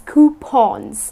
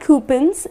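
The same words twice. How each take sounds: First: The last syllable rhymes with lawn. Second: The last syllable does not rhyme with lawn. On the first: The speaker calls it right. "it rhymes with lawn or Sean" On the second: The speaker calls it wrong. "it's not coupons"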